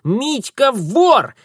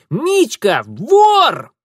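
First: Slow, high, loud gloating; sing-song tattling child; triumphant taunt. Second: Slower, louder gloating yell; taunting shout. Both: Acted. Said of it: "торжествующее личико кузины".

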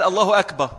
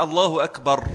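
First: "الله أكبر" with the last ر left off; final ر dropped. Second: "الله أكبر" with a clearly sounded final ر; final ر pronounced. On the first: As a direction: cut "أكبر" short, ending on "ba" with no r. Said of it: "من غير الراء". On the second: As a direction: finish "أكبر" fully on its r, "akbar". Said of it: "لازم يدخل بآخر حرف". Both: Shown as a demonstration.

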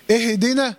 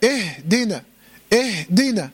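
First: اهدنا said "ihi-dina"; wrongly voweled ha. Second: Slow اهدنا with breath flowing in "ihh-dina"; still ha. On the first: Teacher shows the mistake, extra vowel in اهدنا. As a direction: bounce a short vowel after the ha in اهدنا. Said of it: "لا، اهدنا". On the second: Teacher corrects the reading, airy still ha in اهدنا. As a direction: let the vowelless ha breathe in اهدنا. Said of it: "الهاء ساكنة". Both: Shown as a demonstration.

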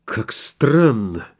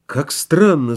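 First: «Как странно!» протяжно, медленно, с изумлением; тихое медленное «странно» в первый раз; slow wonder. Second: «Как странно!» повторено с подъёмом, живее; второе «странно» выше и громче; amazed. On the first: (медленно, с удивлением) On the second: (удивлённо) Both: A narrator's reading. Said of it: "заговорил Турбин".

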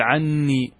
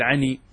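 First: "عني" with a held, doubled n; doubled noon. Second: "عني" with one short n, no doubling; single noon. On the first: Teacher showing gemination to students, "عني" with doubled n. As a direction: merge two n sounds into one long one in "عني". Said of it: "تدغم النون في النون وتشدد". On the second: Teacher showing the deleted noon, "عني" with a single n. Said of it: "إذا حذفت النون تكتفي بالياء فقط". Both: Shown as a demonstration.

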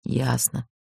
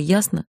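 First: Soft, resigned "Ясно"; sighed assent. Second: Raised questioning "ясно?"; testy demand. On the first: Man on the right gives in, sighing quietly. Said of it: "вздохнули справа". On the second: Woman refuses to be seen, testily checks he understood. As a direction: put "ясно?" as a challenge. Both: A narrator's reading.

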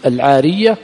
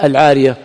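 First: "العارية" with a doubled, held ya. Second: "العارية" with a single, undoubled ya; light ya. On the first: Teacher showing students a variant of the term, doubled ya in "العارية". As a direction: stress the shadda on the ya of "العارية". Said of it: "ويقال بالتشديد". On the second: Teacher giving students the other reading, light ya in "العارية". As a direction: say "العارية" with no shadda on the ya. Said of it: "ويقال العارية بالتخفيف". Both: Shown as a demonstration.

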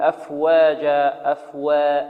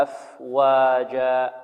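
First: أفواجا with the واو leaning toward ي; overdone thinning. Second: أفواجا slow, with a clean, light واو; correct waw. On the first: Teacher mimics students over-thinning, ya-tinged waw. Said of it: "هذا خطأ". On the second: Teacher gives the correct form, slow and clean. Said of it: "الصحيح والله أعلم أن هكذا". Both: Shown as a demonstration.

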